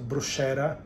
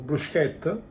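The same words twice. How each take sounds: First: The word is said with an American pronunciation. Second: The word is said with an Italian pronunciation. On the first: The speaker calls it wrong. "not bruschetta as the Americans say" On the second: The speaker calls it right. "In Italian, C H K"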